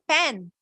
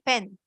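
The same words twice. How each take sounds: First: The vowel is a full, clear e sound. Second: The vowel is short and quick, reduced. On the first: The speaker calls it wrong. "here we are not saying pen" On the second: The speaker calls it right. "We are just saying this e quickly"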